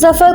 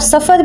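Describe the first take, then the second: First: The name begins with a z sound. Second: The name begins with an s sound. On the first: "जो हम pronounce करते हैं जेड को" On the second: "उस जेड को एस के साथ प्रोनाउंस करके सफर भी कह सकते हैं"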